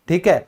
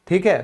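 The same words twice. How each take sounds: No difference in how they are said.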